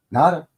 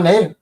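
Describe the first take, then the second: First: "Nada" said as NAH-duh; broad-A pronunciation. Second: "Nada" said as NAY-duh; long-A pronunciation. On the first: Offering John the Spanish-style alternative, "Nada" as NAH-duh. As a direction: open "ah" in the first syllable of "Nada". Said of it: "I see that as Nada". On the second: Greeting John with the film's version, "Nada" as NAY-duh. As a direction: rhyme "Nada" with "Vader", ending in "uh". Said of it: "is it Nada or Nada". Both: Shown as a demonstration.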